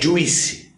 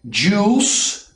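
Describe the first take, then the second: First: The vowel has an added 'ee' sound. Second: The vowel is a plain 'oo' sound. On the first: The speaker calls it wrong. "você fala juice. Esse I, ele não é pronunciado" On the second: The speaker calls it right. "Então é juice"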